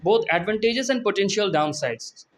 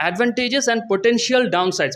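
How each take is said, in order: First: Said in the usual way. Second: Potential lifted high and slow to point it out; stress on potential. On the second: Shown as a demonstration. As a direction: lean on potential, slowly, for the class. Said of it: "দেখেন chat GPT কি language use করতেছে". (potential শব্দে জোর দিয়ে ধীরে)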